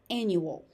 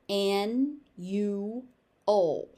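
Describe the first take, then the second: First: It is said at a natural, connected pace. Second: Each syllable is exaggerated and separated. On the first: "the standard normal pronunciation of the word again" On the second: "overpronounce it"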